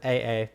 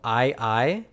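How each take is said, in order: First: Each syllable has an 'ay' vowel. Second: Each syllable has a long 'eye' vowel. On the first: "it's not as fun as A A" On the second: "It's said with a long I sound"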